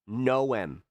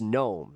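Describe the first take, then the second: First: The name is said with a hard pronunciation. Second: The name is said exactly like gnome. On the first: The speaker calls it wrong. "they do this weird hard pronunciation that is not how you say their name" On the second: The speaker calls it right. "It's gnome, like garden gnome"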